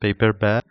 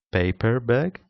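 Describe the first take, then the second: First: "paper bag" with PAPER stressed. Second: "paper bag" with BAG stressed, rising. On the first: Teacher contrasts meanings, "paper bag" stressed on paper. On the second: Teacher contrasts meanings, "paper bag" stressed on bag. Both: Shown as a demonstration. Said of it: "different semantic functions".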